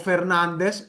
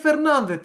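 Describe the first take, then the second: First: The name ends with an s sound. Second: The name ends with a th sound. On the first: It is said the way people from the Americas would say it. "θα είναι Αργεντίνος" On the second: It is said the way people in Spain would say it. "Αλλιώς θα είναι Φερνάνδετ στα ισπανικά"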